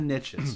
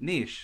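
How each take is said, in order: First: The word rhymes with 'riches', said like 'nitch'. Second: The word is said like 'neesh', not rhyming. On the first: This is how Americans say it. "you Americans call it, there's riches in the niches" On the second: This is how Canadians say it. "we pronounce it niche, so it doesn't rhyme"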